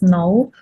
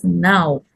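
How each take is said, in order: First: No with an oh vowel, for now; mispronounced. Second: Now with a full ow glide; correct pronunciation. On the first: Retold or imitated. Teacher explaining the missing diphthong, no mispronounced for now. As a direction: say no where now is meant. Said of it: "pronounced as no". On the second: Shown as a demonstration. Teacher correcting no to now, correctly pronounced. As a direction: open now out to ah-oo. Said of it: "The correct pronunciation is".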